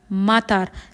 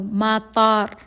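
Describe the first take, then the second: First: The second vowel is kept short. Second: The second vowel is held long. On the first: It means rain. "short vowel. Lahat sila ay short vowel" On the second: It means airport. "si airport ay may long vowel sa may ta"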